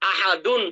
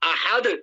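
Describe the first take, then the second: First: The word ends with a full 'un' sound. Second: The word ends on a bare 'd' consonant. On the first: The reader continues without stopping. "গুন্না হবে না" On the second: The reader stops on this word. "যখন ওয়াকফ করবো এখানে, তখন কিভাবে হবে"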